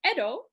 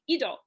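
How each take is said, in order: First: It is said in standard Japanese, starting with 'e'. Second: It is said in Echigo dialect, starting with 'i'.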